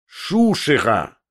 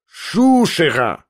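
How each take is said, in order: First: Contemptuous cry. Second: Shouted in fury. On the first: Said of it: "прокричал он вновь". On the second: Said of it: "прокричал он вновь и почти скрежетнул зубами". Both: A narrator's reading.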